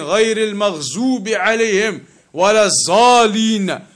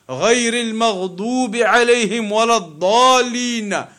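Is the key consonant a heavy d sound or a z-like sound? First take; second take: z-like; heavy d. First: The key consonant sounds like a z. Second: The key consonant is a heavy emphatic d. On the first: The speaker calls it wrong. "That is not even the Arabic, the correct pronunciation" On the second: The speaker calls it right. "the correct pronunciation, the ضاد"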